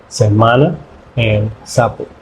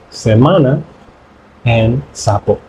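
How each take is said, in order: Both takes have the same delivery.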